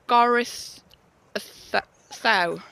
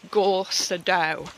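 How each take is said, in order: First: The middle consonant is a soft th sound. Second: The middle consonant is a plain d sound. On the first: "a double D in Welsh is pronounced the" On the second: "if I was going to have said it a while ago, I would have said"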